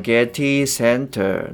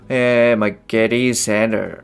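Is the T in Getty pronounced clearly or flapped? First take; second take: clear; flapped. First: The T in Getty is pronounced clearly. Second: The T in Getty is a soft flap. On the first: "本当だったらそのGetty Center" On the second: "アメリカ英語っぽく読んでる"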